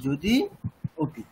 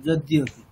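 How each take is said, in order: First: যদি and অপি with a pause between; said separately. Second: যদি অপি run together as যদ্যপি; joined together. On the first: Teacher showing the words kept apart. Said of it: "যদি অপি আলাদা করে বলুন". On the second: Teacher showing the words joined. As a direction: blend যদি অপি into one word. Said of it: "দুটো একসাথে বলুন". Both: Shown as a demonstration.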